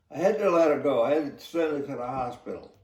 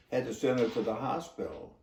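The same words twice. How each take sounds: First: Retold reply, pushed louder; raised voice. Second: Said in the usual way. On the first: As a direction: insist over his shouting. Officer shouts back explaining.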